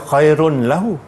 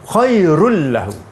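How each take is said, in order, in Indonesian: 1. Bunyi n tetap dibaca sebelum l. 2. N melebur menjadi bunyi l yang dobel. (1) "kita tak boleh baca khairun lahu" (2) "idgham bila gunnah"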